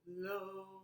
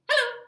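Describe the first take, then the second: First: It is said slowly. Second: It is said fast.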